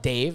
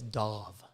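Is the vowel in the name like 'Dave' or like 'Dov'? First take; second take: Dave; Dov. First: The vowel sounds like the one in 'day'. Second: The vowel sounds like the one in 'dove'. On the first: The speaker calls it wrong. "not Dave" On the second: The speaker calls it right. "It's Dov"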